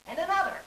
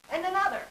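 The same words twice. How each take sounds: The two takes are said the same way.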